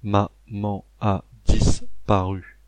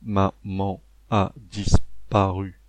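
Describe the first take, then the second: First: It is said in a flat robotic voice. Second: It is said in a flat robotic voice.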